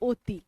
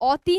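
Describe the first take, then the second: First: The first vowel is a closed 'o' sound. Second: The first vowel is an open 'aw' sound. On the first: This is how the word is actually spoken. "উচ্চারণ করব কি?" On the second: This follows the written spelling. "লিখবো অতয় হস্যই, অতি না বলে"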